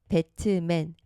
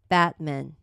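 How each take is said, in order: First: The t is released with a full vowel. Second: The t is held and never released. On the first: The speaker calls it wrong. "배트맨 이 소리에만 익숙하거든요" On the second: The speaker calls it right. "트 소리 안 내고 요거를 받침 느낌으로"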